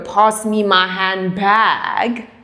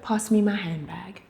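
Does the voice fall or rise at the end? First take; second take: rises; falls. First: The voice rises at the end, like a question. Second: The voice falls at the end, like a statement. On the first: It sounds like asking rather than telling. The speaker calls it wrong. "you don't go" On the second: It is a simple direct request. The speaker calls it right. "You just go"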